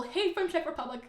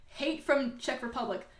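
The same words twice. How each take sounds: First: Amused mock quote. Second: Said in the usual way. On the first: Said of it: "I like the little".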